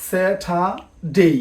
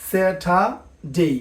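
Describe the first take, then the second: Both takes have the same delivery.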